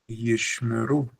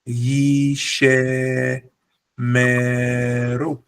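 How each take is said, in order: First: The 'sh' runs straight into 'm' without vowel. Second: An extra 'e' vowel is inserted after 'sh'. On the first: The speaker calls it right. "there's a shva, which means pronounce as per normal" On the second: The speaker calls it wrong. "the incorrect way of pronouncing it would be yishe meru"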